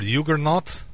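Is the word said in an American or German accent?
German. It is said in a German accent.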